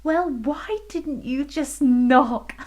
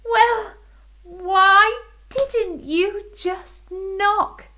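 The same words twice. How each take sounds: First: High giggly question; giggling queen. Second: High, slow teasing voice; playful queen. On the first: Queen giggling at the fairy. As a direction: giggle through it. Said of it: "giggled the queen". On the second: Queen teasing the fairy about knocking. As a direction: tease her gently. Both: Acted.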